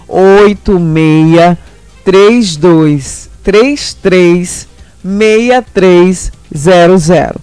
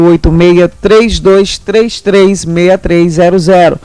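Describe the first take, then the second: First: The number is said slowly, with pauses. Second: The number is said at normal, fast pace.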